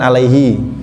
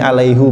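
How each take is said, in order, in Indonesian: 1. Kata itu berakhir dengan vokal 'i'. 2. Kata itu berakhir dengan vokal 'u'. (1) "Yang lain kan alaihi" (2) "Di sini alaihu"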